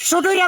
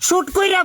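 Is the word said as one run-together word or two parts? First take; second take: one word; two parts. First: It is squeezed into one run-together word. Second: It is said clearly as two separate parts. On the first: The speaker calls it wrong. "এদেরকে শুটুইরা বলিস কেন বেটা?" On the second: The speaker calls it right. "শুট কইরা বলবি বেটা"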